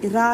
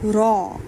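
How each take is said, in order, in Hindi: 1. अक्षर का नाम हल्की आवाज़ में बोला जाता है। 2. अक्षर का नाम मज़बूत, भारी आवाज़ में बोला जाता है। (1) "रा नहीं कहना" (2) "इसको स्ट्रॉन्ग वॉइस में पढ़ा जाता है"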